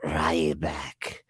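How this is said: The name is said in a ramped-up, creature-like voice.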